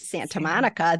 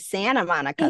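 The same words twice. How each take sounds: First: The T sound is clearly pronounced. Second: The T sound is dropped. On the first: "they don't say Santa Monica" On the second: "They say Santa Monica. They drop T's"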